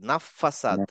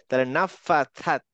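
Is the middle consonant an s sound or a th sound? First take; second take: s sound; th sound. First: The middle consonant is an s sound. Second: The middle consonant is a th sound. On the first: The speaker calls it wrong. "আমরা একদিন বলতাম ফাসাদ, ... এইটাকে আমরা সিনের মতো উচ্চারণ করতাম" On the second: The speaker calls it right. "আসলে সিন না, এটা হচ্ছে থা।"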